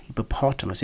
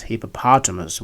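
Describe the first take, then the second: First: Hippopotamus with a short O in POT; British pronunciation. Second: Hippopotamus with a long AH in POT; American pronunciation. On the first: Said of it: "in British English". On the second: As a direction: say hippopotamus as hippo-PAH-tuh-mus. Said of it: "hippopotamus with a long R". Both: Shown as a demonstration.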